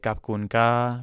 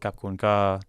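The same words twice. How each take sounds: First: The pitch rises on the word. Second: The pitch falls on the word. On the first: "your tone is rising" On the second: "or going down"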